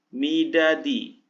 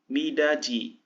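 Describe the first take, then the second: First: The last consonant is a 'd' sound. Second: The last consonant is a 'j' sound.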